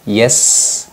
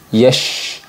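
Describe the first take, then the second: First: The consonant is a plain s sound. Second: The consonant is an sh sound. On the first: "biasanya tertukar dengan huruf sin berharokat sukun" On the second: "tertukar dengan huruf shin yang berharokat sukun"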